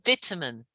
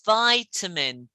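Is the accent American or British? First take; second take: British; American. First: It is said in a British accent. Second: It is said in an American accent. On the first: "U K, vitamin" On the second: "So Americans, it's vitamin"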